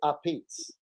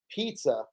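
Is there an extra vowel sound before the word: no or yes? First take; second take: yes; no. First: A short vowel sound comes before the word. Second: The word starts directly with the p sound. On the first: The speaker calls it right. "You say a pizza" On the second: The speaker calls it wrong. "you never say pizza"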